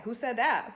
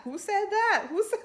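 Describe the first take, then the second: First: Said in the usual way. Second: Much higher, shocked dramatic demand; Housewives drama. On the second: Retold or imitated. Host imitates Atlanta housewives demanding who said it, high and dramatic. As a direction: camp outrage like a reality-show dinner table. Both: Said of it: "That's what it reminded me of".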